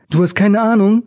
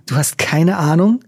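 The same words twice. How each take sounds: First: Ape her words back mockingly; mocking imitation. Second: Lightly provoking rising question. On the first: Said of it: "äffte er sie nach". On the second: Acted. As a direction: goad her with the question. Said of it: "als wollte er Fiona provozieren".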